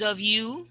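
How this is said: The pitch rises at the end. The speaker calls it right. "So going up"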